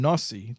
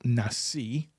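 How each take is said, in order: First: The word is said with Ashkenazic Hebrew vowels. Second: The word is said with Israeli Hebrew vowels.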